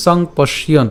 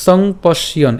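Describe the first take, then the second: No difference in how they are said.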